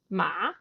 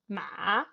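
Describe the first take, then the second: First: The pitch rises like a question. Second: The pitch dips low, then rises again. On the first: "question in English" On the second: "goes down and then goes up"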